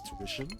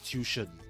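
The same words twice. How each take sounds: First: The word is said the standard way. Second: The word is said the Singaporean way. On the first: The speaker calls it right. "they don't pronounce tuition as tuition" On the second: The speaker calls it wrong. "They pronounce it as tuition"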